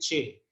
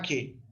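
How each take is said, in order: First: The name starts with a ch sound. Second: The name starts with a hard k sound. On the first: This is the Italianate medieval pronunciation. "como una pronunciación medieval italianizante, la dice che" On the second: This is the classical pronunciation. "si uno está usando la pronunciación clásica, lo llama que"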